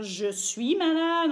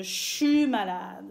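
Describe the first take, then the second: First: Said in the usual way. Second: "je suis" said as "chu" /ʃy/ in "je suis malade"; Québec chu. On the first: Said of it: "au lieu de dire je suis malade". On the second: Shown as a demonstration. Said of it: "on va dire je suis malade".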